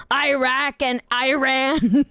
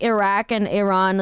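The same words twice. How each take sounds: First: Iraq and Iran as slow "eye-RACK and eye-RAN"; mocking American pronunciation. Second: Said in the usual way. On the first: Streamer baffled by how Americans say them, mocking "eye" in Iraq and Iran. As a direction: draw out Iraq and Iran, each starting with "eye". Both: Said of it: "the way that they say".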